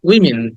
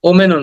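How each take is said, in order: First: The word begins with a 'wi' sound. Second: The word begins with an 'o' sound. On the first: The speaker calls it right. "Short ই বলতে হবে" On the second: The speaker calls it wrong. "ওমেনও না"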